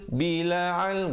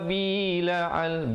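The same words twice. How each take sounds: First: The first vowel is short and moves straight on. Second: The first vowel is drawn out before the next sound. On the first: The speaker calls it right. "Yang betulnya" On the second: The speaker calls it wrong. "Dia lambat masuk, bi itu kedengaran dua harakat"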